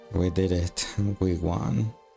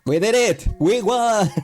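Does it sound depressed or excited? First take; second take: depressed; excited. First: It sounds flat and depressed. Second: It sounds cheerful and excited.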